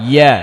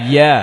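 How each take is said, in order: The two takes are said the same way.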